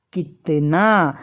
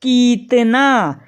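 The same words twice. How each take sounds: First: कितना drawn out slowly, short i in कि; slow syllable reading. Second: कितना slowly, कि stretched into a long ee; wrong long ee reading. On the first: Teacher reading कितना slowly for the class. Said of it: "ना में बड़ा की मात्रा है". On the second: Teacher showing the wrong reading to students. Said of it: "तो हम इसका उच्चारण करते". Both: Shown as a demonstration.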